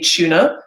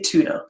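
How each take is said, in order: First: It is said in a British accent. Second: It is said in an American accent. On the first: "we say tuna" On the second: "they say tuna"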